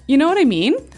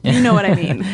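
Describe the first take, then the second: First: It sounds like a question. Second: It sounds like a statement.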